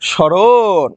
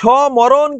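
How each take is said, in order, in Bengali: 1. প্রথম ব্যঞ্জনের পরে ম ধ্বনি উচ্চারিত হয় না। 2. প্রথম ব্যঞ্জনের পরে ম ধ্বনি উচ্চারিত হয়। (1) "কি বলতে হবে?" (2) "এই যে সমরণ কিন্তু বলা যাবে না রে"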